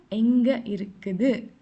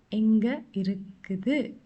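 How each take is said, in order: Both takes have the same delivery.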